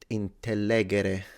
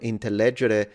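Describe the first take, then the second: First: It uses classical Latin pronunciation. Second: It uses ecclesiastical Latin pronunciation.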